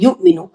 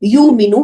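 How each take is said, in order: First: The hamza is pronounced as a glottal stop. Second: The hamza is dropped and the vowel lengthened. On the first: "ये हमारा तरीक़ा युमिनु" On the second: "युमिनु भी अगर कोई पढ़ता है, तो वो भी सही है"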